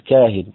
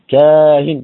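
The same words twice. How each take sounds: First: The vowel before the hamza is kept short. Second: The vowel before the hamza is held long.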